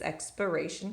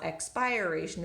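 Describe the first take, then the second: First: The unstressed vowel is reduced to a schwa. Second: The unstressed vowel is a full, unreduced vowel. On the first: The speaker calls it right. "it's expiration because it's flexing to the schwa" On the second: The speaker calls it wrong. "it's not expiration"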